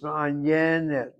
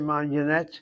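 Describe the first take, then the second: First: The stress is on the second-to-last syllable. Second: The stress is on the last syllable. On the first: The speaker calls it right. "it's Manyanet" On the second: The speaker calls it wrong. "You don't say Manyanet"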